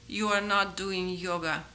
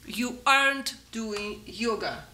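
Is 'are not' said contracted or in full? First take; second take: full; contracted. First: 'Are not' is said as two full words. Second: 'Are not' is shortened into one word. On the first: "Здесь мы ставим not doing yoga" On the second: "Сокращается как you aren't"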